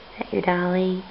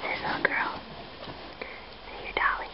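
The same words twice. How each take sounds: First: Said in the usual way. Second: Soft unvoiced whisper; hushed whispered question. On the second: Real, not acted. Parent whispering to baby.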